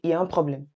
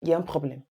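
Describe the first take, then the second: No difference in how they are said.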